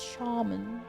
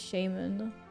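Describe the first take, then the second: First: The word is said in a posh-sounding way. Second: The word is said in a plain, everyday way. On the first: Someone else corrects the speaker with this version. "some posh person comes in and like, it's Shaman" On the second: This is how the speaker usually says it. "I always just say Shaman"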